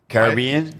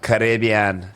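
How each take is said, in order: First: It is said the way white people say it. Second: It is said the way black people say it.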